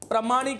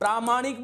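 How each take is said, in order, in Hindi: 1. पहला स्वर ह्रस्व है। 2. पहला स्वर दीर्घ है। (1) "नहीं" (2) "बोलिएगा"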